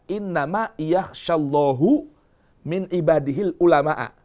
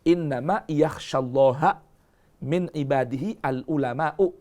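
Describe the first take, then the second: First: Allah ends in u, ulama ends in a. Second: Allah ends in a, ulama ends in u. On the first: God is the subject and the scholars are the object. "Sebagian ada yang membaca" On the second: The scholars are the ones who fear God. "Kalau ini kan dibacanya gini, ayat ini yang telah yang tercantum dalam mushaf-mushaf kita ini"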